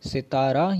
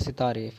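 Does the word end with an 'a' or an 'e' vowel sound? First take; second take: a; e. First: The word ends with an 'a' vowel. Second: The word ends with an 'e' vowel. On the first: The speaker calls it wrong. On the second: The speaker calls it right.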